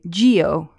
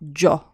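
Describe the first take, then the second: First: An i sound is heard before the o. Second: No i sound is heard before the o. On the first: The speaker calls it wrong. "pronounce the I and say gio" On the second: The speaker calls it right. "just a nice, short, sharp jo"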